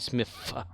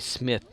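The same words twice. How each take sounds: First: The word ends with an f sound. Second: The word ends with a th sound. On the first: "You say Smith. As if it's S M I F F" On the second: "you don't say Smith"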